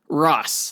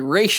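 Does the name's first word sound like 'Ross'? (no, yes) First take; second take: yes; no. First: The first word sounds like 'Ross'. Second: The first word does not sound like 'Ross'. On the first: The speaker calls it right. "but it's Ross, like Ross and Rachel" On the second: The speaker calls it wrong. "the cartoon, of course, used to say Ra's al Ghul"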